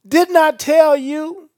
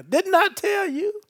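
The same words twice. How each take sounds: First: Louder, slow, higher "Didn't I tell you?"; emphatic Jesus quote. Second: "Didn't I tell you?" much higher, with a Southwest Louisiana lilt; Jesus as a Southwest Louisiana man; Southwest Louisiana accent. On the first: Acted. Preacher quoting Jesus to Martha, loud and slow. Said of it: "Look at Jesus' response". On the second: Retold or imitated. Preacher jokingly voicing Jesus, Southwest Louisiana accent. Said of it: "he from Southwest Louisiana".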